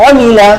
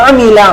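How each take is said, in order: Both takes have the same delivery.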